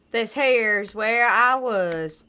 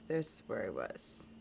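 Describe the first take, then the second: First: Put-on slow, loud southern accent drawl. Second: Said in the usual way. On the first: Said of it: "with any kind of southern, uh, accent".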